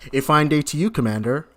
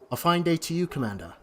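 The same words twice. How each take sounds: First: It is said in the speaker's ordinary accent. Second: It is said in a put-on British accent.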